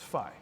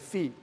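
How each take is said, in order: First: The vowel is an 'eye' sound. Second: The vowel is a long 'ee' sound. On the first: This is how Americans say it. "So I will use the Phi" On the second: This is how Europeans say it. "The Europeans would say fee"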